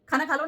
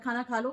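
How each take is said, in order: First: It is said in an angry, irritated tone. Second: It is said in a calm, ordinary tone. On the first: The speaker wants to show anger and irritation. "ऐसे करके, ... दिखाना है कि मैं गुस्सा हूँ या मैं इरिटेबल हूँ" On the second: A plain request to eat. "Normal बात"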